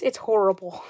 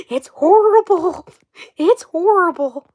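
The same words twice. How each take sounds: First: Said in the usual way. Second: Put-on loud, higher, slow farm-girl drawl; exaggerated mock drawl. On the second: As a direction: drag it out in a mock Southern accent. Exaggerated repeats mocking the accent.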